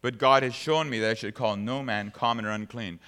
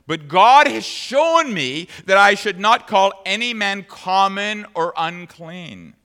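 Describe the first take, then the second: First: Said in the usual way. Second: Louder, slow emphatic preaching. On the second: Retold or imitated. Preacher quoting Peter to the Gentiles, slow and emphatic. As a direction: stress every word of the lesson. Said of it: "then he said to them".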